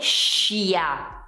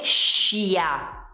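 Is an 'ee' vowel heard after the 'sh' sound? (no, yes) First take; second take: yes; yes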